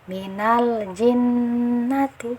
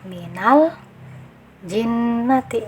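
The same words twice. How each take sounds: First: The lam flows on clearly with no break. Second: There is a brief stop right after the lam. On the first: The speaker calls it right. "Cara bacanya adalah minal jinnati" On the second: The speaker calls it wrong. "jangan diberi saktah minal jinnati. Nah, itu yang keliru"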